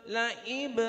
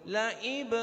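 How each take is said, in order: Both takes have the same delivery.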